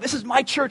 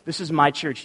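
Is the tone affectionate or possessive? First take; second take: affectionate; possessive. First: It sounds warm and affectionate. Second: It sounds possessive and exclusive.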